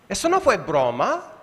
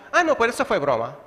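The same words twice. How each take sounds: First: Said in the usual way. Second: "eso fue broma" tossed off fast and breezy; a quick flippant excuse to cover an insult; dismissive cover-up. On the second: Retold or imitated. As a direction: laugh off an insult as a joke. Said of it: "cubrimos lo que hemos dicho ofensivo".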